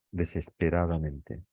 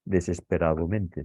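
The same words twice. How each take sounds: First: "desesperadamente" with an A before -mente; forma correcta. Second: "desesperadamente" with an O before -mente, desesperadomente; forma incorrecta. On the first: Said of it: "sino desesperadamente". ("desesperadamente" dicho con a: desesperadamente) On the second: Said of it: "No decimos desesperadamente, sino". ("desesperadamente" dicho con o: desesperadomente) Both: Shown as a demonstration.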